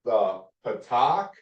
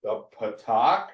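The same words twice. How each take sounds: First: The patak, drawn out slowly with a rising end; teacher modelling The patak; slow vowel demo. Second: Said in the usual way. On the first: Shown as a demonstration. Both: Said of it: "only for three, uh, short vowels".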